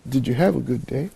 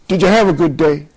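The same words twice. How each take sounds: First: The question is asked in a warm tone. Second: The question is asked in a harsh tone. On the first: The listener feels welcome and opens up. The speaker calls it right. "he's going to open up" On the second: The listener feels accused and becomes defensive. The speaker calls it wrong. "he's going to become defensive"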